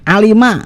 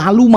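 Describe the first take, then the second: First: The middle syllable has the vowel i. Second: The middle syllable has the vowel u. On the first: The speaker calls it right. "Alima li jangan menjadi alama" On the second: The speaker calls it wrong. "jangan menjadi aluma"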